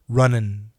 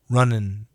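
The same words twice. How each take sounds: First: The word is said fast, ending in 'in'. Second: The same.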